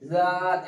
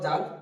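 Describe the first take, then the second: First: It begins with a soft lisped th sound. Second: It begins with a j sound. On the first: The speaker calls it right. "এটা হালকা একটা তুতলা হবে" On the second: The speaker calls it wrong. "এরকম জাল যেন না হয়ে যায়"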